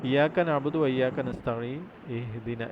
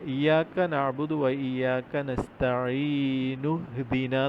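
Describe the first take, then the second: First: The vowel starting ihdina is clearly sounded. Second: The starting vowel drops, linking as nu-hdina.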